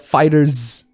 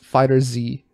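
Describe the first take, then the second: First: The name ends in a plain z sound. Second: The name ends with the spelled letter Z. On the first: The speaker calls it wrong. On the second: The speaker calls it right. "It's Fighter Z"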